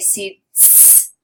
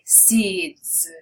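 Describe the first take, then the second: First: The final sound is a hissing S. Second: The final sound is a buzzing Z. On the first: The speaker calls it wrong. "I'm not going to say seeds" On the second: The speaker calls it right. "No, I'm going to say seeds"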